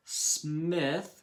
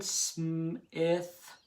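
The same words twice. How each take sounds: First: Said in the usual way. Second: Smith stretched slowly: s, m, ith; tapped out by sounds. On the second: Shown as a demonstration. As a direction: pull Smith apart sound by sound. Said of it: "remember I'm clapping and tapping".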